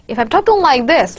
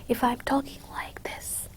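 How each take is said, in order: First: It is spoken rapidly with quick articulation. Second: It is spoken at a normal, unhurried pace. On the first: "like rapid articulation of words" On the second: "I'm talking about voice"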